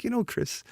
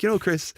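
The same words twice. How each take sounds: First: Light, high-pitched mock British accent. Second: Said in the usual way. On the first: Imitating a British reviewer addressing the designer, light British accent. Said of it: "he's got the British accent". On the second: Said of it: "not even gonna do the accent".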